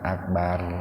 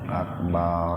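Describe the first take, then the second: First: The r is pronounced thin and light. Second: The r is pronounced thick and heavy. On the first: The speaker calls it wrong. "jangan akbar gitu kan" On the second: The speaker calls it right. "ro-nya dibaca tebal"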